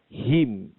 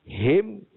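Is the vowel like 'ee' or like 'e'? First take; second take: ee; e. First: The vowel sounds like 'ee'. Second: The vowel sounds like 'e'. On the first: The speaker calls it right. "bacaan yang betulnya adalah H I M" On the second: The speaker calls it wrong. "Bukan H E M. Kalau kita sebut him, salah"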